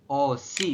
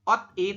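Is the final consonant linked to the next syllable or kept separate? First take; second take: linked; separate. First: The consonant moves over to start the second syllable. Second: A t sound stays on the first syllable. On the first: The speaker calls it right. "Betul, teman-teman. Seperti ini ya" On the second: The speaker calls it wrong. "Anda membacanya bukan ot, i"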